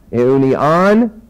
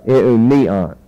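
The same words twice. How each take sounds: First: Eunion rising onto an accented final -on; stress on last syllable. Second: Eunion accented on -ni-, dropping on the final syllable; stress on penult. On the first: Teacher contrasting masculine with feminine form, stress on last syllable. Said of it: "accent on the last syllable". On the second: Teacher contrasting feminine with masculine form, stress on penult. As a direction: hit the next-to-last syllable of Eunion, let the end fall. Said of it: "an acute accent on the penult syllable". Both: Shown as a demonstration.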